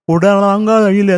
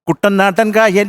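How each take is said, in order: First: The syllables are slurred and run together. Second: Each syllable is pronounced crisply and distinctly. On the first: The speaker calls it wrong. "അതിനകത്തൊരു വികാരമില്ല" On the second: The speaker calls it right. "ക്രിസ്പായിട്ട് അക്ഷരങ്ങൾ പറഞ്ഞെങ്കിൽ"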